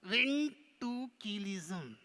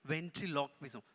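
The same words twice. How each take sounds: First: Very slow, stretched puppet attempt; struggling puppet. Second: Said in the usual way. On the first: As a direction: sound it out laboriously as the puppet. Puppet attempts the word slowly.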